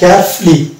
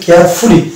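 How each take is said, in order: First: The ending has a reduced, silent-u vowel. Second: The ending has a full 'oo' vowel. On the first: The speaker calls it right. "ইউকে বাদ দিয়ে উচ্চারণ করতে হবে, তাহলে শুদ্ধ উচ্চারণ হবে" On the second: The speaker calls it wrong. "আমরা বলি কেয়ারফুলি, কিন্তু এটা ফুলি হবে না"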